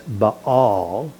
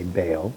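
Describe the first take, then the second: First: "Baal" in two syllables, ba-AL; vowels pronounced separately. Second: "Baal" said as one syllable, like "bail"; anglicized pronunciation. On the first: Teacher showing the Hebrew way, "Baal" split into ba-AL. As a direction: split "Baal" slowly so each a is heard. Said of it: "you pronounce each vowel separately". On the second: Teacher giving the habitual English reading, "Baal" like "bail". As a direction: run the vowels of "Baal" together into "bail". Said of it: "even though we want to say". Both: Shown as a demonstration.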